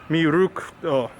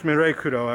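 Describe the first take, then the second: First: The second syllable has an 'oo' vowel. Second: The second syllable has an 'eh' vowel. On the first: The speaker calls it right. "I think it's Mirukuro" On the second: The speaker calls it wrong. "I don't think it's Mirekuro actually, pronounced that way"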